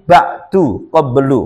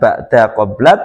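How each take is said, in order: First: Both words end with a 'u' vowel. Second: Both words end with an 'a' vowel. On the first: The following possessor word has been dropped. The speaker calls it right. "tapi ba'du qablu" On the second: The following possessor word is present. The speaker calls it wrong. "Dibacanya bukan ba'da qabla"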